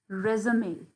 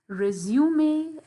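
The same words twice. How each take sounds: First: American pronunciation, without the long 'you' sound. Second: British pronunciation, with a long 'zu' vowel. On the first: "in American English, it will be pronounced as resume" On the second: "In British English, it will be pronounced as resume"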